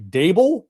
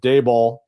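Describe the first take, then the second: First: The name ends sounding like 'bull', rhyming with table. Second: The name ends sounding like 'ball'. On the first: The speaker calls it right. "Dable like table" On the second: The speaker calls it wrong. "I've been going extreme Dayball"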